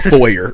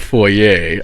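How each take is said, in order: First: The word ends with an 'er' sound. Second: The word ends with an 'ay' sound. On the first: The speaker calls it right. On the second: The speaker calls it wrong.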